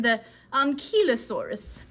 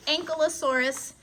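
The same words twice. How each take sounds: First: Ankylosaurus said as AHN-kee-luh-SOR-us, with an open AHN and a clear kee; Ankylosaurus, pronounced the British way; British pronunciation. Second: Ankylosaurus said as ANK-uh-luh-SOR-us, with a short uh in the middle; Ankylosaurus, American variant. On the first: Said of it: "for those in Britain". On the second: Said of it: "I've also heard the Ankylosaurus". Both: Shown as a demonstration.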